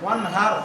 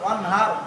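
The two takes are said the same way.

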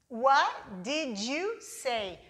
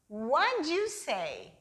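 First: It is said slowly and carefully. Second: It is said very fast and reduced.

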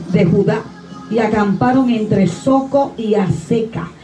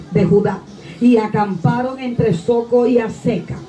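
The two takes are said the same way.

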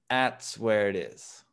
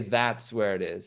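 First: The 'th' in 'that's' is barely pronounced. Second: The 'th' in 'that's' is clearly pronounced. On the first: The speaker calls it right. "It's kind of like, I bet that's where it is" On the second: The speaker calls it wrong. "You don't say that's where it is"

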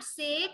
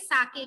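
First: The word is one syllable, like 'sek'. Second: The word is two syllables, like 'sah-keh'. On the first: The speaker calls it wrong. "Not सेक" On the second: The speaker calls it right. "It is साके"

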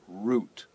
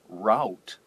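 First: The word sounds like 'root', rhyming with 'boot'. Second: The word has a vowel unlike 'root'. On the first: "pronounced like R-O-O-T" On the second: "you will hear people say route"

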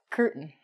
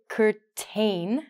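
First: The T and the vowel after it are dropped. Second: The T and the vowel after it are fully pronounced. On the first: The speaker calls it right. "We actually say curtain" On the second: The speaker calls it wrong. "we don't say curtain, which it looks like"

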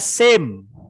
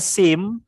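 First: The vowel is a gliding 'ay' sound. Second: The vowel is a short 'ee' sound. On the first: The speaker calls it right. "tapi dibaca same" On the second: The speaker calls it wrong. "ini bukan dibaca sim"

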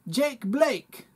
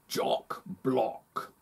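First: It is said in a New Zealand accent. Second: It is said in a posh London accent. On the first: "That kind of sounds like I'm from New Zealand" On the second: "Now I'm a wealthy Londoner"

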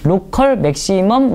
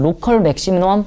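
First: The term is pronounced in a clear, careful way. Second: The term is pronounced in a sloppy, unclear way. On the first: The speaker calls it right. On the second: The speaker calls it wrong.

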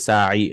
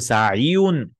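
First: The word ends in a plain long i. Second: The word ends with a voweled ya plus -un. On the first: The speaker calls it right. "You'll say sa'i" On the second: The speaker calls it wrong. "You'll not say sa'iyun"

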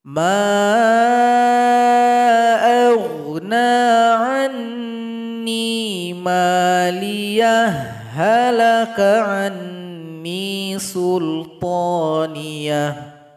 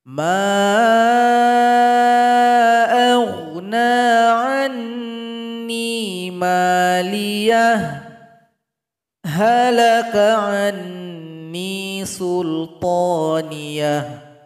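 First: The two h sounds merge without a pause. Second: A short held pause comes before halaka. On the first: "H berjumpa dengan H, kita lakukan idgham, kita leburkan hurufnya" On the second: "kita tahan nafas dulu dua detik baru digabung"

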